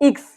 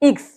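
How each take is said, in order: Both takes have the same delivery.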